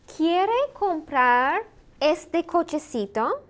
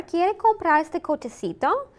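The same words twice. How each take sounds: First: Slow, higher-pitched, drawn-out question; slow model question. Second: Said in the usual way. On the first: Shown as a demonstration. Teacher modelling a practice question for learners, slow and deliberate. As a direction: model it word by word, rising at the end.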